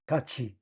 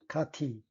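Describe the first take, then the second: First: The middle consonant merges into a ch sound. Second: The middle consonant stays a plain t sound. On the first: The speaker calls it right. "The answer is number two" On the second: The speaker calls it wrong. "일"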